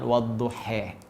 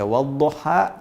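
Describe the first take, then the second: First: The word ends in an 'e' sound. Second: The word ends in an open 'a' sound. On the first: "nanti ada bacaan wadduhe" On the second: "Kita baca wadduha"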